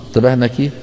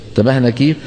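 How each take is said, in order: The two takes are said the same way.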